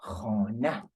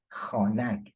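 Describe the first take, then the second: First: "Khana" ending on an open a, no consonant; modern form. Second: "khanak" with the final k sounded; old form. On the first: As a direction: end "Khana" on the bare vowel. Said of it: "Just write the word like that". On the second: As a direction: close "khanak" on a voiced g-like k. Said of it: "in fact". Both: Shown as a demonstration.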